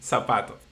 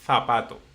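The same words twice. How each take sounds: First: It is said with a Latin American accent. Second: It is said with a Spain Spanish accent.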